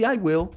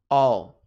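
First: Said in the usual way. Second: I'll said like "all"; low, emphatic contracted "all"; reduced contraction. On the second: Shown as a demonstration. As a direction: squeeze I will into one loud syllable, "all". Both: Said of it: "vai ser reduzido para".

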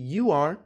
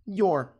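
First: Said in the usual way. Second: "your" as one syllable; contracted "your", said as one word; reduced contraction. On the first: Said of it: "você pode sempre substituir". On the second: Shown as a demonstration. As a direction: run you and are together into "your". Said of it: "É uma forma reduzida".

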